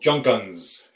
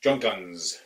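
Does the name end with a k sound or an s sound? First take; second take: s sound; s sound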